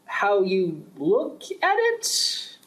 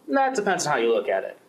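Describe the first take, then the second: First: Higher, very slow, "at" rising in disbelief; incredulous echo. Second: Said in the usual way. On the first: Acted. Official repeating the guard's excuse, slow and disbelieving. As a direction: throw his words back at him, stunned.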